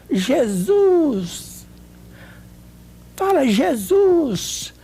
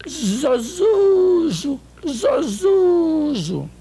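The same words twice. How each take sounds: First: Higher, very slow and drawn-out coaxing. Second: Zozuzo as a slurred, very slow, higher Jesus; imitating a speech-impaired friend saying Zozuzo. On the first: Retold or imitated. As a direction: draw the words out so she can follow. Coaxing her to say Jesus. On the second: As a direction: stretch Zozuzo out like a tongue that won't obey. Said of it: "Aí ela falou".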